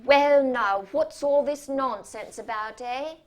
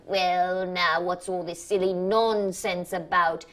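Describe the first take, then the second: First: Louder, jolly talking-down opening; hammed-up bedside manner for difficult children; patronizing voice. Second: A light hint of talking down; only a touch of the voice for difficult children; patronizing voice. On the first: Imitating the surgeon soothing an old lady, louder and patronizing. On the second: Surgeon talking down to an old lady, only lightly patronizing. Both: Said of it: "in that voice he uses for old ladies and difficult children".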